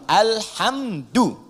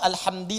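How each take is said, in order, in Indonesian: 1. Kata itu berakhir dengan vokal u. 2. Kata itu berakhir dengan vokal i. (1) "alhamdu pakai dhammah" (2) "atau alhamdi pakai kasrah"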